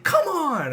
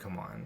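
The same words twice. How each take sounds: First: It is said in an excited, higher-pitched tone. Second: It is said in an angry, upset tone. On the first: Something good just happened in the game. "I'm like really excited" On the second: Something bad just happened in the game. "I will say an angry come on"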